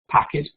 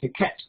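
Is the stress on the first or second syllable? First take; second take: first; second. First: The stress is on the first syllable. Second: The stress is on the second syllable. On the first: The speaker calls it right. "which one sounds English? And then they select packet" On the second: The speaker calls it wrong. "put the stress on the wrong syllable, and we're going to get paquette"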